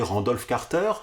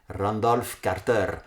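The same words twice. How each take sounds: First: The name is said with a French accent. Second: The name is said with an Indian accent, rolled R's. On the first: "j'ai toujours prononcé Randolph Carter, sans trop me poser de questions" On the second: "en roulant un peu les R"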